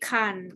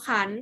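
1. คำนี้ออกเสียงเป็นเสียงต่ำ 2. คำนี้ออกเสียงเป็นเสียงขึ้น (1) "ขันไม่เอกขัน" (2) "ขออะนอขัน"

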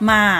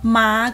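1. คำว่า “ม้า” ใช้เสียงวรรณยุกต์ต่ำแบบภาษาไทยใต้ 2. คำว่า “ม้า” ใช้เสียงวรรณยุกต์สูงแบบภาษาไทยกลาง (1) "ม้าก็จะเป็นม่า" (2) "แล้วก็ม้าก็คือม่า"

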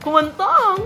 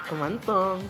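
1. Masaya ang tono ng pagkasabi ng salita. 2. Malandi ang tono ng pagkasabi ng salita. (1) "Ayan, happy" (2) "naglalandik ka"

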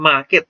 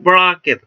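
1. เสียง r ก่อน k ไม่ออกเสียง 2. เสียง r ก่อน k ออกเสียง (1) "เราก็ออกเสียงว่า ... ธรรมดาเฉยๆได้" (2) "พอเติมการันปุ๊บก็ไม่ต้องออก"

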